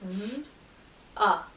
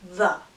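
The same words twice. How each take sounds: First: "Z-a" as a held buzz, then uh; sounded out. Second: Said in the usual way. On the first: Shown as a demonstration. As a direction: separate the two sounds of "Z-a". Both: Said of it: "every sound you hear".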